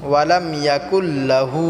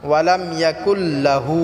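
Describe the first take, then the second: The two takes are said the same way.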